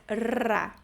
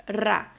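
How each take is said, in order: First: "Ra" with a longer rolled r; prolonged trill. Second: "ra" with a short rolled r; trilled R. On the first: Teacher shows double R, prolonged trill. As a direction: hold the trill in "Ra" a bit longer. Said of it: "prolonga um pouquinho mais". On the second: Teacher shows one R still trills, rolled demo. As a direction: give "ra" a brief trill. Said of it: "um R, dois R's". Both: Shown as a demonstration.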